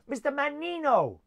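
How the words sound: It is said in a put-on Italian accent.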